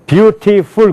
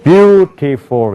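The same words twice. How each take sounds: First: Beautiful with even Korean syllables; flat beautiful, every beat alike; Korean-style beautiful. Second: Beautiful with a strong first syllable, the rest swallowed; English beautiful. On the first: Teacher mimics the wrong Korean way: beautiful flat. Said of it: "그런 영어가 없어요". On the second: Teacher shows students the native beautiful. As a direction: hit BEAU in beautiful, slur the rest. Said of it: "이렇게 된단 말이에요". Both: Shown as a demonstration.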